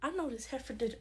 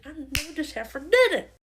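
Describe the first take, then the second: First: Very soft, under the breath; hushed disbelief; muttered indignation. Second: Incredulous punch on "did"; indignant repeat. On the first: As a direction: mutter it to yourself, affronted. Muttered disbelief, then repeated louder. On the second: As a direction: stress on "did", voice leaping up on it. Repeats the muttered line louder. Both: Acted.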